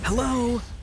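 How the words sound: It is said in an angry tone.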